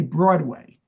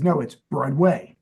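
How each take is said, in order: First: "Broadway" leaning on WAY: broad-WAY; misplaced syllable stress. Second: "Broadway" stressed on BROAD: BROAD-way; corrected syllable stress. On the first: Shown as a demonstration. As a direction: push the emphasis onto the second syllable of "Broadway". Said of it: "putting the emphasis on the wrong syllables". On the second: Retold or imitated. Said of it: "and he says".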